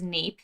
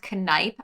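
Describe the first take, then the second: First: The name is said an anglicized way. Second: The name is said the German way. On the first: The speaker calls it wrong. "I always thought it was Neep, so I think I've been pronouncing it wrong" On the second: The speaker calls it right. "for German, it is pronounced Kneipp"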